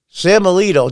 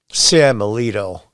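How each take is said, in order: First: "Sam Alito" punched higher and louder, falling; indignant emphasis. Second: "Sam Alito" said slow and lower, falling; drawn out, pointed delivery of "Sam Alito"; slow, deliberate name. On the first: Host reading Warren's tweet, stressing the bare name. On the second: Host repeating Warren's snub of Alito, slow and pointed. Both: Retold or imitated.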